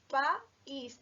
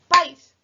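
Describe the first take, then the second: First: The vowels are split into two syllables. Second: The vowels are joined into one syllable. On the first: The speaker calls it right. "No, diríamos país" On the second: The speaker calls it wrong. "Nunca diríamos país"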